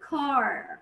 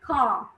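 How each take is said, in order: First: It ends with a clear R sound. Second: It ends on a long vowel with no R. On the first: "في الامريكان بتتنطق كار" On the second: "في البريتش كا ما تنطقتش الار"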